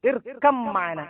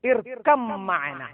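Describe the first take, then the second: Both takes have the same delivery.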